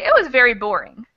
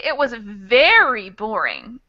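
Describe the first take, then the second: First: The word boring carries the strongest stress. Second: The word very carries the strongest stress. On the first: It was boring, but nothing extreme. "if you emphasize the word boring and not the word very" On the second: It was extremely boring. "that means it was extreme"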